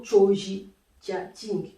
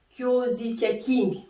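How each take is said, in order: First: Choji spoken with a ch sound at the start; second pronunciation. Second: Kyozi spoken with a clear ky sound at the start; first pronunciation. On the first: Teacher giving the choji variant with a ch onset. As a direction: say choji with ch instead of ky. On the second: Teacher giving the Kyozi variant with a ky onset. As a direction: say Kyozi with ky, not ch. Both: Shown as a demonstration. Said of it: "que je dise kyozi ... c'est la même chose".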